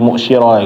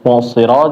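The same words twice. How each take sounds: First: The middle consonant is an sh sound. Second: The middle consonant is a heavy emphatic s. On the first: The speaker calls it wrong. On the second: The speaker calls it right.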